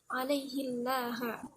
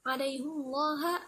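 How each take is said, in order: First: The h is followed by an 'i' vowel. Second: The h is followed by an 'u' vowel.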